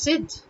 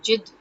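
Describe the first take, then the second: First: The word begins with a z sound. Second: The word begins with a j sound. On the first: This is the Urdu pronunciation. The speaker calls it right. "but it's zid" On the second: This is how Hindi speakers say it. The speaker calls it wrong. "They would end up saying jid"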